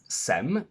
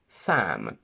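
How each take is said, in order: First: The vowel is the 'e' of 'bed'. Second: The vowel is the open 'a' of 'bad'. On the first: The speaker calls it wrong. "most foreigners would pronounce it as Sem" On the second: The speaker calls it right. "my name contains the quacky a"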